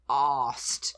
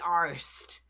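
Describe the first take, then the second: First: It is said in a British accent. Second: It is said in an American accent. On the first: The speaker calls it right. "that's not how they pronounce it, you know. It's arsed" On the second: The speaker calls it wrong. "that's the way they say it"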